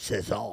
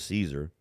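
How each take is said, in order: First: The name is pronounced the French way. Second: The name is pronounced the English way. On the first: "if you want to say it in French" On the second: "to me it looks like it said Caesar, so I'm going to pronounce it Caesar"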